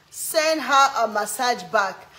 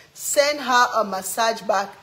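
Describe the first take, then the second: No difference in how they are said.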